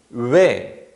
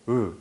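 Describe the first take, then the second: First: The lip shape changes during the vowel. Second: The lip shape stays steady during the vowel. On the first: This is how speakers say it today. "외 이런 식으로 입술 모양이 바뀌거든요" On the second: This is how speakers said it in the past. "으 이렇게 발음했어요"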